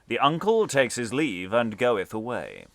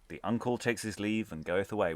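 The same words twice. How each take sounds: First: It is read in a loud, booming voice. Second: It is read in an ordinary voice.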